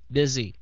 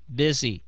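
The two takes are said the same way.

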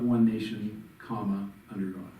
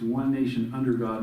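First: There is a pause after 'nation'. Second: It is said smoothly with no pause. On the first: The speaker calls it wrong. "not one nation, comma, under God" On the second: The speaker calls it right. "it's one nation under God"

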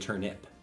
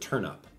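First: The second syllable sounds like 'ip'. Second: The second syllable sounds like 'up'. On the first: The speaker calls it right. "But it's actually turnip" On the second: The speaker calls it wrong. "I usually pronounce it turnup"

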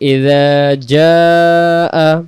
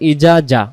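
First: A glottal stop is heard inside the second word. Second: The second word has no glottal stop. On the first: The speaker calls it right. "তো আমরা পড়ি ইযা জাআ" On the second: The speaker calls it wrong. "আমাদের বলে ফেলি ইজা জা ... হামজা অক্ষর বাদ চলে যেতে পারে"

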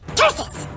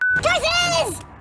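First: It is said flatly, with little emotion. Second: It is said with strong emotion.

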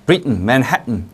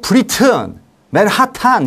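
First: The t is swallowed before the n. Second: The t is fully released before the n. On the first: The speaker calls it right. "t랑 n이 가까이 있으면" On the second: The speaker calls it wrong. "이렇게 그렇게 발음하면 안 되고"

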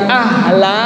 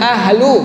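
First: The word ends with an 'a' vowel. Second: The word ends with a 'u' vowel. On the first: It addresses the one who is worthy directly. "Ibu boleh baca dengan kalimat ahla, tafsirnya uraiannya ya ahla" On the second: It states that the one addressed is worthy. "Atau ibu boleh baca dengan kalimat ahlu, uraiannya anta ahlu"

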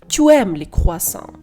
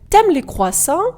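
First: The vowel of tu is fully pronounced. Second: The vowel of tu is dropped entirely. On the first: "ніж" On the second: "вам легше сказати"

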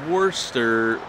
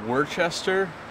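First: The name is pronounced differently from its spelling. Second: The name is pronounced the way it is spelled. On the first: The speaker calls it right. "don't say Worcester. It's Worcester or something" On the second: The speaker calls it wrong. "it looks like Worcester"

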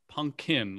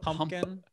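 First: The second P sound is left out. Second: Both P sounds are pronounced strongly. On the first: "Like you skip the second P" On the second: "Do you over-enunciate the P's in pumpkin?"

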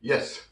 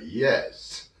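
First: The word ends with a drop. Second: The word ends with a lift. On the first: There is no need to tell you. The speaker calls it wrong. "이렇게 떨어지는 발음은 버려버리는 겁니다" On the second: The feeling is handed over to the listener. The speaker calls it right. "이렇게 들어주고 끝납니다"

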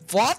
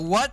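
First: The word is said with a German accent. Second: The word is said without a German accent. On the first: "Ils disent what?" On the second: "ils disent pas what?"

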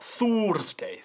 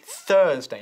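First: The first vowel is a Spanish 'u' sound. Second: The first vowel is an English 'er' sound. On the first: The speaker calls it wrong. "not Thursday" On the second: The speaker calls it right. "la U, no suena como una U española"

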